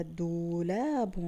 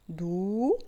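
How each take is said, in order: First: "دولاب" slowly as doo-laa-bun, joined up; slow, connected sounding of "دولاب"; whole word, stretched. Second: "دولاب" in separate parts, doo, laa, bun; choppy sounding-out of "دولاب" with stretched vowels; syllable by syllable. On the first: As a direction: draw out both long vowels of "دولاب" without breaks. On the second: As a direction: break "دولاب" apart with pauses, long rising doo first. Teacher splits word into syllables. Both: Shown as a demonstration.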